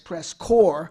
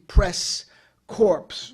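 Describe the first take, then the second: First: The word ends with no consonant sound. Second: The word ends with a clear 'ps' sound. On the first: The speaker calls it right. "I know enough Sanskrit to know it's press corps" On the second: The speaker calls it wrong. "and I use that carefully"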